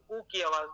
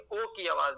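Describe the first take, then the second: First: او said as "oo" in "food"; correct u sound. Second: او said as "oh"; mistaken o sound. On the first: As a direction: round او into a long "oo", not "oh". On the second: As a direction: open او to "oh" instead of "oo". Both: Shown as a demonstration. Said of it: "بلکہ او کی آواز نکالتے ہیں".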